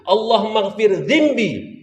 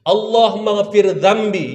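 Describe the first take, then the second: First: The last word's first vowel is i. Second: The last word's first vowel is a. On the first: God, forgive my back. The speaker calls it wrong. "Tukar atas jadi bawah" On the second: God, forgive my sins. The speaker calls it right. "Ya Allah ampunkan dosaku"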